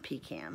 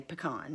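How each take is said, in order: First: "pecan" with a long stressed PEE, then can; PEE-can pronunciation. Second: "pecan" with a short first syllable and stressed KAHN; puh-KAHN pronunciation. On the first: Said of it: "not pecan". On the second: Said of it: "I say pecan". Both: Shown as a demonstration.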